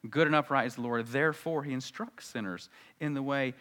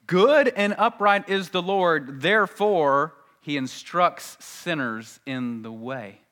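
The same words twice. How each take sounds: First: Said in the usual way. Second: Loud, slow, raised proclamation easing down at the end; emphatic scripture reading. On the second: Acted. Preacher drives home the psalm to congregation, emphatic. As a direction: proclaim the verse slowly and forcefully.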